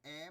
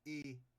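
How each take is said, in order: First: The vowel is open, like é. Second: The vowel is closed, like ê. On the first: "esse E puxado, como se ele estivesse acentuado, com agudo" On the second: "como se tivesse um acento circunflexo"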